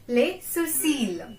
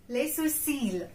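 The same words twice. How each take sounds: First: Les sourcils said slowly with the ending held; slow model pronunciation. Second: Said in the usual way. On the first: Shown as a demonstration. Teacher repeating Les sourcils slowly for students. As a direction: draw out Les sourcils carefully. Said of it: "A quite hard word". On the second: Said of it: "Sorry, eyebrows".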